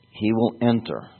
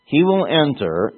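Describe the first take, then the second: First: Enter leaned on, falling; stress on enter. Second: He will enter proclaimed higher and louder; emphasis on enter. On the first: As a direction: give enter the weight. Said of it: "I emphasize enter". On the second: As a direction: lift and drive He will enter. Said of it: "the emphasis on enter". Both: Shown as a demonstration.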